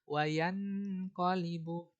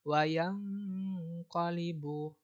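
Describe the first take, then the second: First: The nasal is pronounced like a clear 'n'. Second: The nasal is pronounced like a soft 'ng'. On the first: The speaker calls it wrong. "Nggak boleh dibaca wayan qalibu. Itu salah" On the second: The speaker calls it right. "Dia harus dibaca eng"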